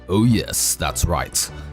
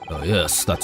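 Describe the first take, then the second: First: It is said in a deeper voice. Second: It is said in a higher voice.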